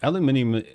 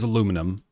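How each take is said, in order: First: It is said with five syllables, British style. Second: It is said with four syllables, American style. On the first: "aluminium, though, is just how you say it in places like England" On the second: "aluminum in in in the U S"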